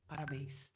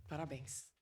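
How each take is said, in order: Both takes have the same delivery.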